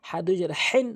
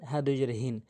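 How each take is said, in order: First: "হেন" with a raspy pharyngeal H; tight-throat ha. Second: "হিন" with an open breath H, lower pitched; light plain ha. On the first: Teacher contrasting similar letters, tight-throated H in "হেন". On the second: Teacher contrasting similar letters, low open-breath H in "হিন". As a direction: relax the throat on the H of "হিন". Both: Shown as a demonstration. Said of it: "হরফের উচ্চারণের পার্থক্য".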